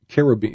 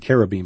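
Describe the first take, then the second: First: The word begins with a ch sound. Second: The word begins with a k sound. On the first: The speaker calls it wrong. "We tend to pronounce it with a ch" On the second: The speaker calls it right. "it actually should be cherubim"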